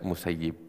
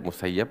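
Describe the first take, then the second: First: The last syllable has the vowel 'i'. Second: The last syllable has the vowel 'a'. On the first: The speaker calls it right. "dengan kasrah ... lebih baiknya adalah musayyib" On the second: The speaker calls it wrong. "bisa dibaca musayyab"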